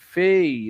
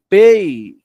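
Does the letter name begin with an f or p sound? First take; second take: f; p. First: It begins with an f sound. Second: It begins with a p sound. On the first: "que se torna fei" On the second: "o pei"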